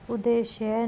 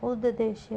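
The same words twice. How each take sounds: First: उद्देश्य with a single d; wrong pronunciation. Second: उद्देश्य with a doubled d; correct pronunciation. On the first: Teacher showing a spelling error, उद्देश्य as u-deshya. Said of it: "नहीं होगा". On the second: Teacher giving the correction, उद्देश्य as ud-deshya. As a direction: hold the first d: ud-deshya. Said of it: "होगा". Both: Shown as a demonstration.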